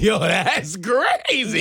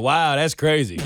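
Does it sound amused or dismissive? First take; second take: amused; dismissive. First: It sounds genuinely amused, with laughter. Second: It sounds flat and dismissive.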